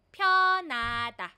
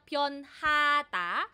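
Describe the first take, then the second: First: No h sound is heard in the middle. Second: An h sound is heard in the middle. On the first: "nagiging silent si hiyut" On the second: "imbis na pyonhata"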